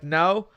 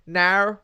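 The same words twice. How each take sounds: First: Said in the usual way. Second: "now" as an Aussie-sounding no; imitated Australian no, heard as "now"; mimicked Aussie no. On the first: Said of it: "like no". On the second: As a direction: twist the vowel of "now" like an Australian no. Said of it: "if you start saying now".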